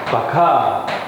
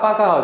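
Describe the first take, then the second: First: It starts with a plain 'b' and a 'k'. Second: It starts with a tense 'pp' and a 'g'. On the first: This is the standard Japanese form. The speaker calls it right. "근데 원래는 바카입니다" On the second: This is how Koreans usually say it. The speaker calls it wrong. "우리는 빠가 빠가 하죠"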